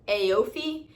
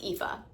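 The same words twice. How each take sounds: First: The name is sounded out from its spelling. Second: The name is said with its native pronunciation. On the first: An American reader would guess it this way. The speaker calls it wrong. "to an American that would be like Aoife" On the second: This is how the name is actually said. The speaker calls it right. "but it's pronounced Aoife"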